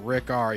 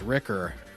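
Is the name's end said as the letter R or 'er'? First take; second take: letter R; er. First: The name ends with the letter R spelled out. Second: The name ends with a short 'er' sound. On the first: The speaker calls it wrong. "it's not Rick R" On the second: The speaker calls it right. "You gotta start pronouncing it right"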